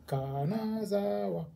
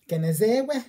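First: It is said flat, each syllable evenly separated. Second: It is said with a rustic, rural-sounding accent. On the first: The speaker calls it right. "هنقول الكلمات متقسمه" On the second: The speaker calls it wrong. "ده كده انت فلاح"

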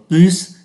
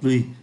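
First: The final s sound is pronounced. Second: The final s sound is silent. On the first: It compares nouns. "so sánh danh từ thì phải đọc phát âm ký tự S" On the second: It compares adjectives. "không phát âm ký tự S"

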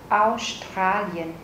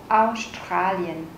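The two takes are said the same way.

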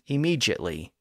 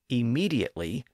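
First: The middle consonant is a j sound. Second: The middle consonant is a plain d sound. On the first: "giving the D a J sound" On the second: "giving the letter D its D sound"

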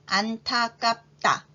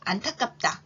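First: The word is said slowly. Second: The word is said at normal speed. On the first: "천천히 두 번 말해 볼게요" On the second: "이번에는 평균 속도로 해볼까요?"

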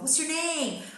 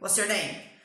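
First: The pitch moves melodically like a question. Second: The pitch stays flat and hard throughout. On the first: It is said the way Brazilians ask questions. "a gente faz pergunta" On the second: It is said the way Americans ask questions. "Eles são tão duros"

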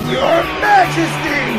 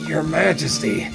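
First: It is said loudly with pride. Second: It is said quietly and hesitantly.

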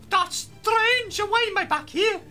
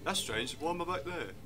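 First: It is said in a full Amy Pond impression. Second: It is said in a weaker, half-hearted impression.

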